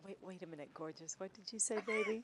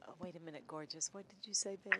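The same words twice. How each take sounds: First: Hushed. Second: Soft, low, hushed imitation of husband. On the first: Retold or imitated. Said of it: "Say it again". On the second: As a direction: murmur it low and sultry. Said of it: "What he says is".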